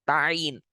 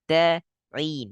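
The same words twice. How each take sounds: First: The t is pressed hard without a puff. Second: The t is soft with a puff of air. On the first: The speaker calls it wrong. "jangan menekan pada ta" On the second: The speaker calls it right. "Ta lembut, ta ada percikan angin"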